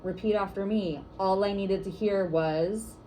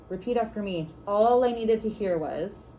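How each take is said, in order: First: Slow, clear call for the group to echo; first call to the group, slow and measured; 1 call and response lead, slow. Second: Louder, slow call for the group to echo; second try, calling it out slower and louder; 1 call and response lead, slow and louder. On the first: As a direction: lead the room in a chant, slowly. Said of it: "I'll say something like". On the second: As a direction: project the line so the room repeats it. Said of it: "Let's try it again". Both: Shown as a demonstration.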